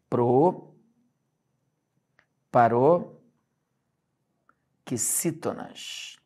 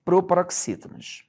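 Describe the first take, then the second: First: "Proparoxítonas" very slowly in chunks, long pauses between; syllable by syllable. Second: Said in the usual way. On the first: Shown as a demonstration. Teacher introducing the rule to students, "Proparoxítonas" broken up very slowly. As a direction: spell out "Proparoxítonas" by sound, pro, paro, xítonas. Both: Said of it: "Então, vamos lá".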